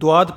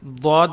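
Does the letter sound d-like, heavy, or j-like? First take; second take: d-like; d-like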